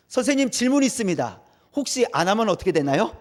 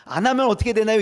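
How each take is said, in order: First: Lightly voiced cheeky pupil asking; a hint of a smart-aleck kid; cheeky student. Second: A louder cocky pupil pressing the question; cheeky student, louder. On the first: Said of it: "튀는 아이들이 있어요". (살짝 흉내 낸 까부는 학생) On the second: Retold or imitated. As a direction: push the question cheekily and loud. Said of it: "이렇게 얘기해요". (더 크게 따지듯 묻는 학생)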